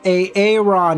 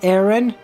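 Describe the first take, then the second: First: The name begins with an extra separate 'A' syllable. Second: The name is said plainly with no extra syllable. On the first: "mispronounces everyone's name" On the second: "do do do you mean Aaron?"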